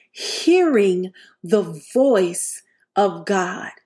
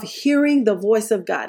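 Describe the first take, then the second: First: Drawn out, every word weighed; slow solemn restatement; slow deliberate repeat. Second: Said in the usual way. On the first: Shown as a demonstration. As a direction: let it sink in slowly. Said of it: "repeated slower for emphasis".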